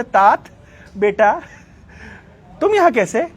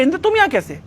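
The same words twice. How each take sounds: First: Motherly questioning. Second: Quick, higher-pitched retold surprise; mildly acted startled question; surprised question. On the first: Retold or imitated. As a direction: imitate a mother questioning her son. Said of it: "Bhagavat बोल रहे". (बेटे से ममता भरा सवाल) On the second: दिति इंद्र को देखकर चौंकी. (हल्की हैरानी से पूछना)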